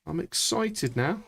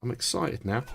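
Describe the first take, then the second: First: Higher and slower, building up; drawn-out rising excited; slow rising excitement. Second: Said in the usual way. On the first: Shown as a demonstration. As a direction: let the excitement creep in.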